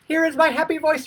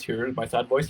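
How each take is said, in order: First: Very high, sing-song happy voice; hammed-up happy, way up high. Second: Sad voice. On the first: Coach mocking mirror practice, exaggerated happy voice. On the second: Coach mocking mirror practice, put-on sad voice. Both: Shown as a demonstration.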